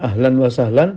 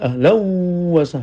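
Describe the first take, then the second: First: The n sound before wa is clearly kept. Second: The n sound merges into the following w.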